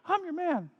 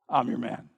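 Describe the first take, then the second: First: It is said in a high squeaky voice. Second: It is said in a normal adult voice.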